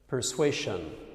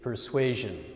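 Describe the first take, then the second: First: The middle consonant is not a 'zh' sound. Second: The middle consonant is a 'zh' sound. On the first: The speaker calls it wrong. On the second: The speaker calls it right. "it should be persuasion"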